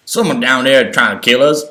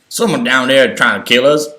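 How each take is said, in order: First: It is said in a put-on hillbilly accent. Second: The same.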